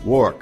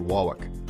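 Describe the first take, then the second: First: The R sound is pronounced. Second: The R sound is left out entirely. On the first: "some people say" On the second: "they take out the R entirely"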